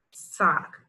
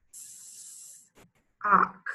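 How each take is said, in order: First: Said in the usual way. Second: "Sock" split as long s, pause, ock; drawn-out S separated from the ending in "Sock"; word in parts. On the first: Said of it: "put the sounds together". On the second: Shown as a demonstration. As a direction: stretch the first sound of "Sock", then add the rest. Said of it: "say a word in parts".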